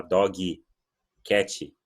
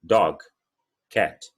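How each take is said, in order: First: "dog, cat" with an added i at each end; Portuguese-style mispronunciation. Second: "Dog, cat" ending cleanly on the consonants; crisp final consonants on "Dog, cat"; correct English pronunciation. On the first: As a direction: say "dog, cat" as doggy, catchy. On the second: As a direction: say "Dog, cat" with no vowel after g or t. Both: Shown as a demonstration. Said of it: "Não é assim que fala em inglês".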